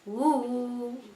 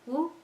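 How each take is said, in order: First: The vowel is held for two counts. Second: The vowel is held for one short count. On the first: "if you want to make it a little longer, ooh, two"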